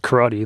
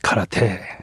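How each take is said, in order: First: The word is pronounced the usual American way. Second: The word is pronounced differently from the American way. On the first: The speaker calls it wrong. "like we do in America" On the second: The speaker calls it right. "the correct pronunciation is karate"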